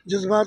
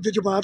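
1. ਇਹ ਸ਼ਬਦ ਸਾਵਧਾਨ, ਮਿਆਰੀ ਢੰਗ ਨਾਲ ਬੋਲਿਆ ਗਿਆ ਹੈ। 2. ਇਹ ਸ਼ਬਦ ਲਾਪਰਵਾਹੀ ਨਾਲ, ਗ਼ੈਰ-ਮਿਆਰੀ ਢੰਗ ਨਾਲ ਬੋਲਿਆ ਗਿਆ ਹੈ। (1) "ਲਫਜ਼ ਸ਼ੁੱਧ ਨਹੀਂ ਬੋਲਦੇ" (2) "ਕੁਝ ਲੋਕ ਲਫਜ਼ ਸ਼ੁੱਧ ਨਹੀਂ ਬੋਲਦੇ"

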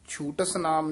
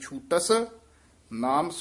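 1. ਦੋਵੇਂ ਸ਼ਬਦ ਬਿਨਾਂ ਠਹਿਰਾਅ ਦੇ ਇਕੱਠੇ ਬੋਲੇ ਜਾਂਦੇ ਹਨ। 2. ਪਹਿਲੇ ਸ਼ਬਦ ਤੋਂ ਬਾਅਦ ਇੱਕ ਛੋਟਾ ਠਹਿਰਾਅ ਆਉਂਦਾ ਹੈ। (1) "ਛੂਟਸ ਨਾਮ ਨਹੀਂ" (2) "ਛੂਟਸ ਤੇ ਯਮਕ ਲਾ ਦੇਣੀ ਹੈ"

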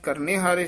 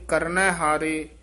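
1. ਪਹਿਲਾ ਸ਼ਬਦ 'e' ਸਵਰ ਨਾਲ ਖਤਮ ਹੁੰਦਾ ਹੈ। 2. ਪਹਿਲਾ ਸ਼ਬਦ 'ai' ਸਵਰ ਨਾਲ ਖਤਮ ਹੁੰਦਾ ਹੈ। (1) "ਪੋਥੀਆਂ 'ਚ ਕਰਨੇ ਹਾਰੇ ਛਪਿਆ ਹੋਇਆ ਹੈ" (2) "ਨੰਨੇ ਦੇ ਦਲਾਵਾਂ ਦੇ ਨਾਲ ਪਾਠ ਸੁਧ ਹੈ"

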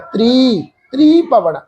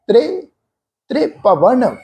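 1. ਪਹਿਲਾ ਸੁਰ ਲੰਮਾ 'ee' ਹੈ। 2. ਪਹਿਲਾ ਸੁਰ ਛੋਟਾ, ਹਲਕਾ 'e' ਹੈ। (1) "ਤ੍ਰੀ ਭਵਨ ਨਹੀਂ ਪ੍ਰੋਨਾਉਂਸ ਕਰਨਾ" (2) "ਹਲਕਾ ਜਿਹਾ ਪਾਠ ਹੋਏਗਾ, ਇਸ ਢੰਗ ਨਾਲ"

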